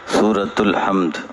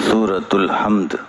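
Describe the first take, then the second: No difference in how they are said.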